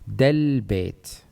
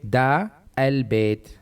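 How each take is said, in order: First: The words run together as one joined unit. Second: The 'a' of 'al' is pronounced separately. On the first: "together they are del bayt"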